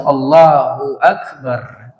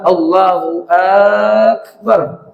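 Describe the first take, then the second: First: The first vowel of Akbar is kept short. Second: The first vowel of Akbar is drawn out long. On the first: It states that God is great. The speaker calls it right. "Jadi sahnya ketika dia baca Allahu Akbar" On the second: It asks whether God is great. The speaker calls it wrong. "Kalau dibaca ah, ... Jadi Allah apakah besar? Tidak sah"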